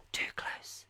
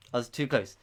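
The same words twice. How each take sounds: First: Whispered, close to the microphone. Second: Said in the usual way. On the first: Shown as a demonstration. Quizmaster too near the microphone, whispering. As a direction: say it in a hushed whisper. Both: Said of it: "I should probably whisper".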